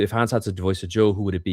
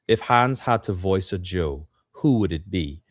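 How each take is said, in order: First: The sentence is read fast and stumbling. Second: The sentence is read slowly and carefully. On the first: The speaker calls it wrong. "immediately you start to stumble" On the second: The speaker calls it right. "slow down"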